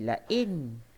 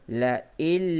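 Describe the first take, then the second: First: The n sound is clearly pronounced. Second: The n sound merges into the following l. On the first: The speaker calls it wrong. "dia tak bunyi la'in" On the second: The speaker calls it right. "nun mati bertemu lam"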